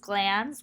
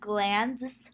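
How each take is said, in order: First: The d sound is left out before the s. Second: The d sound is pronounced before the s.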